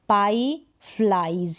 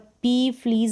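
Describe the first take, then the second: First: The vowel sounds like 'eye'. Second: The vowel sounds like a long 'ee'. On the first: The speaker calls it right. "ये उच्चारण है" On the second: The speaker calls it wrong. "यानी ई ही पढ़ दिया, नहीं"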